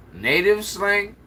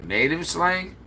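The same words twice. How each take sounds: First: Higher, slow disbelieving echo of "Native slang?"; incredulous repeat. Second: Said in the usual way. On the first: Real, not acted. Reading a viewer's comment, then repeating it incredulously.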